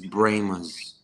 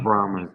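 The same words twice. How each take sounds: First: The first syllable sounds like 'bray'. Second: The first syllable sounds like 'brah'. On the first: This is how the locals say the team name. The speaker calls it right. "it's Brahmas" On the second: This is how outsiders say the team name. The speaker calls it wrong. "not Brahmas"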